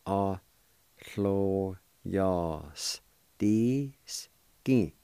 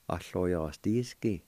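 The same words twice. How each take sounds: First: "lló yas dís gin" stretched out to a crawl; very slow model. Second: Said in the usual way. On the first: Shown as a demonstration. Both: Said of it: "And it's pronounced like this".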